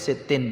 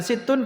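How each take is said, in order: First: The word ends with an 'in' sound. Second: The word ends with an 'un' sound. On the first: The number renames the letters just before it. "itu kalau dibaca dengan kasrah" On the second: The number is a delayed subject with a hidden pronoun. "kita membacanya dengan dhammah"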